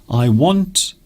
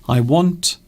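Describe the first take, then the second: The two takes are said the same way.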